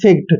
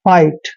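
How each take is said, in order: First: The letters igh are sounded as a hard g. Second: The letters igh are sounded as a long i. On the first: The speaker calls it wrong. "जो कि गलत है" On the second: The speaker calls it right. "आई जी एच T का उच्चारण आपने आइट करना है"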